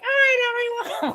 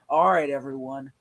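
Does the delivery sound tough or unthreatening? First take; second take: unthreatening; tough. First: It is said in a light, unthreatening way. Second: It is said in a tough, intimidating way. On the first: The character cannot be taken seriously. The speaker calls it wrong. "don't be like" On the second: The character is someone to be feared. The speaker calls it right. "you're more tough and intimidating"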